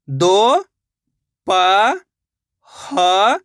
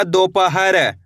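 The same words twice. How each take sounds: First: दोपहर split into दो, प, ह, र with long pauses; syllable by syllable. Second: Said in the usual way. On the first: Shown as a demonstration. Teacher showing learners how to read, दोपहर sounded out slowly syllable by syllable. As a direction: draw out each syllable of दोपहर with a gap after it. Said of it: "एक एक अक्षर का उच्चारण करके". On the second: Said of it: "तो मिलके बन जाएगा".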